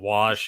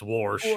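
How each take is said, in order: First: The word is said without an r sound. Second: The word is said with an r sound. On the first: This is the usual way to say it. "instead of wash" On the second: This is how the speaker's parents say it. "that's what my mom and my dad say"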